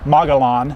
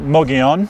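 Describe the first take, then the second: First: The name is pronounced the way it is spelled. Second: The name is pronounced unlike its spelling. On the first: The speaker calls it wrong. "when you see it spelled, everyone wants, wants to say Mogollon" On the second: The speaker calls it right. "but it's actually Mogollon"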